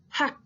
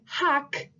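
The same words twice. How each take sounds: First: The final k sound is cut off. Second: The final k sound is fully released. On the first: The speaker calls it right. "you're going to want to just cut off the sound" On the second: The speaker calls it wrong. "instead of saying hak"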